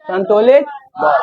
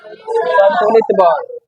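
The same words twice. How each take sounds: First: संतुलित बल called out high, with a shout on बल; called-out answer. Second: Slow drawn-out answer. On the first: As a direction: shout out the answer like a quiz reply. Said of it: "इसे क्या बोलते हैं?". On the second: Teacher answering her own question, slow and drawn out. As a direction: stretch each syllable of संतुलित बल out slowly. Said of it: "तो लगाया गया बल क्या कहलाता है?". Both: Shown as a demonstration.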